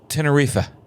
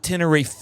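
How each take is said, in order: First: It is said with a Spanish pronunciation. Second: It is said with an American pronunciation. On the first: The speaker calls it right. "Tenerife is how I heard the uh, Spanish person saying it" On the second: The speaker calls it wrong. "it's not Tenerife"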